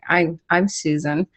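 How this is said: It is said hesitantly, stumbling over the words. The speaker calls it wrong. "I used to be too shy"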